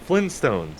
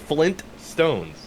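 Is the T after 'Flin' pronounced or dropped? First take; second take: dropped; pronounced. First: The T after 'Flin' is dropped. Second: The T after 'Flin' is pronounced. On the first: "I never pronounced the first T" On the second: "But it's Flint. It's Flint Stones"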